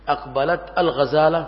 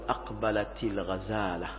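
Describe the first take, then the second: First: The final t has no vowel after it. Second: The final t is followed by an i. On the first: The speaker calls it wrong. "لا" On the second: The speaker calls it right. "بل تقول أقبلت الغزالة، فتكسر التاء"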